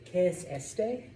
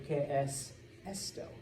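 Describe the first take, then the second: First: ¿Qué es este? tried slowly with a questioning rise; wrong gender guess. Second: ¿Qué es esto? said with the neutral o ending, rising; correct form. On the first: Teacher testing a wrong form on the class, hesitant. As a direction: sound out ¿Qué es este? hesitantly, rising at the end. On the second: Teacher modelling the right question to class, clear. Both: Shown as a demonstration. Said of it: "So we say".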